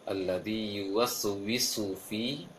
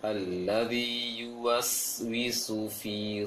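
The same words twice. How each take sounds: First: The silent s sound bounces with a vowel. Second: The silent s sound stops cleanly without bouncing. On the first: The speaker calls it wrong. "ada yang terpantulkan ucapan sin sukun" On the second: The speaker calls it right.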